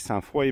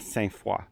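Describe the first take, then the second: First: It is said with an English-speaker's accent. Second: It is said with a Quebec French accent. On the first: This is how an outsider says the name. "I say Sainte-Foy" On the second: This is how local people say the name. "the locals here call it"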